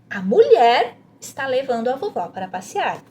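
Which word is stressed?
mulher. The emphasis falls on the word mulher. "leia essa frase enfatizando a parte que está sublinhada, que é a mulher"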